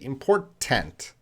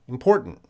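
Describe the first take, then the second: First: Both T sounds are clearly pronounced. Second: Both T sounds are reduced. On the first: The speaker calls it wrong. "don't say those T don't don't say important" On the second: The speaker calls it right. "So both T's are reduced"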